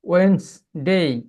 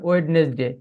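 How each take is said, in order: First: It is said in a more native-like way. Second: It is said in an older local-style way. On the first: The speaker calls it right. "এই এখানে ভালো করে উচ্চারণটা দেখুন" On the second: The speaker calls it wrong. "আগে বলতাম ওয়েডনেসডে"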